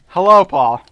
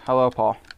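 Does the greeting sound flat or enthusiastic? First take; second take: enthusiastic; flat. First: The greeting sounds warm and enthusiastic. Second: The greeting sounds flat and unenthusiastic.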